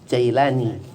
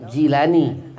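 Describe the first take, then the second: First: The first syllable has an 'ai' vowel. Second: The first syllable has an 'ee' vowel.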